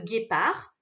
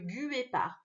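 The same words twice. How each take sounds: First: The G is hard and the U is silent. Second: The U after the G is pronounced aloud. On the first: The speaker calls it right. "il y a la lettre U juste après le G. Elle ne fait pas de bruit" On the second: The speaker calls it wrong. "On ne dit pas le guépard"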